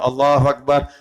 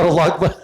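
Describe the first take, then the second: First: The vowel in Allah is drawn out a little. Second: Every vowel in the phrase is kept short. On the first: The speaker calls it right. "Ada panjang tak? Ada" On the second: The speaker calls it wrong. "Yang tak boleh"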